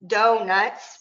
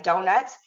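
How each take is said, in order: First: Donuts slowly, with a gap between do and nuts; split into syllables. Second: Said in the usual way. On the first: Shown as a demonstration. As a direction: break donuts into do, then nuts. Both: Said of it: "donuts has two syllables".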